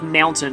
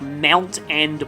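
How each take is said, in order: First: It is blended into the single word mountain. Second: It is said as two separate words. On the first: It names the geographical feature. The speaker calls it wrong. "Not like mountain M O, uh, like as in like the geographical feature" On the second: It names the game title. The speaker calls it right. "but like Mount and Blade"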